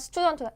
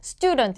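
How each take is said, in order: First: The word is said weakly and hurriedly. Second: The word is said strongly and clearly. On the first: The speaker calls it wrong. "그냥 스튜던트, as student 이런 게 아니라" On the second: The speaker calls it right. "student 이렇게 강하게"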